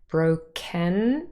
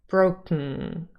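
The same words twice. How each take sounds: First: The second syllable has a vowel before n. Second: The second syllable is k plus syllabic ng. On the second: "when we say it fast, sometimes the ken becomes broken"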